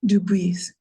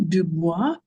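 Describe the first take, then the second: First: Dubois ending in EEZ, not WAH; corrected pronunciation. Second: Dubois said French-style, ending in WAH; mispronounced name. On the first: Commissioner repeating the corrected name back, Dubois pronounced "doo-BEEZ". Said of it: "How do you pronounce your name?". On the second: Commissioner guessing at a speaker's name, Dubois mispronounced as "doo-BWAH". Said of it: "I'm gonna mispronounce your name". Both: Real, not acted.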